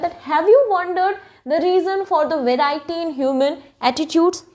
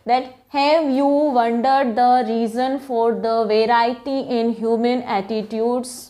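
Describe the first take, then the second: First: It is read with a rising question tune. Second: It is read flatly, without a question tune. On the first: A question is being asked. The speaker calls it right. "Question turn में पूछना पड़ेगा" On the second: It does not sound like a question. The speaker calls it wrong. "अगर मैंने इस first वाले sentence को ऐसे पढ़ा होता"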